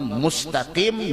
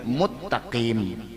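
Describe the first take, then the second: First: The s sound is clearly kept before t. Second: The s sound is merged into a double t.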